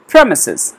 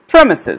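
First: The stress is on the first syllable. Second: The stress is on the first syllable.

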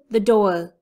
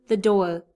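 The two takes are said the same way.

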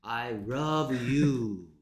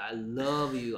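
First: The word love starts with an R-like sound. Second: The word love starts with a clear L sound. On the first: It sounds like saying I rub you. The speaker calls it wrong. "L은 전부 다 R 발음하버리지 왜?" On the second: It means I love you. The speaker calls it right. "I love you 해야 될 거야"

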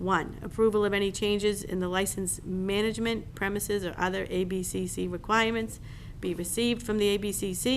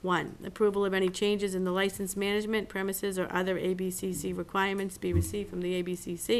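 The two takes are said the same way.

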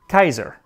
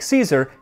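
First: The word begins with a hard K sound. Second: The word begins with a soft S sound.

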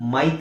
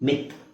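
First: The vowel is an 'eye' sound. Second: The vowel is a short 'i' sound. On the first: The speaker calls it wrong. "ಮೈತ್ ಅಲ್ಲ" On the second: The speaker calls it right. "ಇದು short sound"

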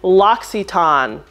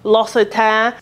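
First: The name is said with an American pronunciation. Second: The name is said with a French pronunciation. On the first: "or the American way" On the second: "So the French way, which I did"

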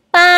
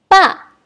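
First: It is said with the first tone. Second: It is said with the fourth tone. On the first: "Nada pertama" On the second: "Dan nada keempat"

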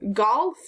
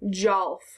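First: The word begins with a hard g. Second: The word begins with a j sound. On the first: "golf or jolf" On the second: "golf or jolf"

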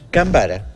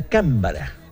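First: The stress is on the second syllable. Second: The stress is on the first syllable. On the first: A past subjunctive form of the verb cambar. "tenemos como palabra grave" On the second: A spider crab of the Cantabrian Sea. "tenemos que buscar la palabra esdrújula"

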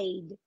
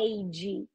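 First: The final d is clearly released. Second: The final d ends with a dj-like sound. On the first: "você pode falar I'd. Não tem problema" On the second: "Como se você estivesse falando um som de DJ no final"

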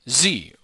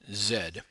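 First: The letter is pronounced 'zee', American style. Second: The letter is pronounced 'zed', New Zealand style.

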